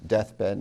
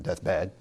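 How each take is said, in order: First: DEATH-bed, stress on DEATH in deathbed; trochee, first syllable stressed. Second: Death-BED, stress wrongly on bed in deathbed; iamb, second syllable stressed. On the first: Teacher gives the natural reading, trochee stress. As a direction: hit the first half of deathbed, drop off on bed. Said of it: "That's a trochee rather than an I am". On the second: Teacher shows the forced misreading, iamb stress. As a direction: lean on the second half of deathbed. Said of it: "not deathbed". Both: Shown as a demonstration.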